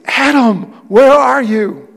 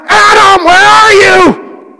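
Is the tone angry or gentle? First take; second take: gentle; angry. First: It is said in a gentle, caring tone. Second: It is said in an angry, accusing tone.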